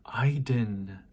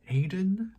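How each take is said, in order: First: "Aiden" with a first vowel like "eye"; pronounced EYE-den. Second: "Aiden" as AY-den, pitched up high as a question. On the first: Acted. Reciting the distant Aiden of the poem, "Aiden" said EYE-den. Tries two pronunciations of the name. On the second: Real, not acted. Reader checking the word mid-poem, "Aiden" as a rising AY-den?. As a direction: try "Aiden" with a long A, unsure. Questions own pronunciation, trying another.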